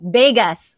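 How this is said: The word begins with a B sound.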